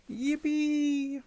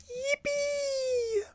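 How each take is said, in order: First: High, held mock kiddie yippee; put-on squeal of glee; high-pitched cheer. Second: Extremely high, held squeal of yippee; mock cheer in a piercing falsetto; as high as possible. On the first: Same kid act cheering, high. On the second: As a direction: push to the very top of your range. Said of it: "That's as high as I can go".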